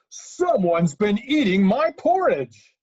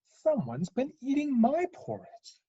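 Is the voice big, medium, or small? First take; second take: big; medium. First: It is said in a great, huge voice. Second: It is said in a medium-sized voice.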